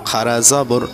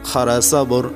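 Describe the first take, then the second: Both takes have the same delivery.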